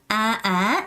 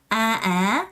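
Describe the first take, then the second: First: The pitch goes up on the vowel. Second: The same.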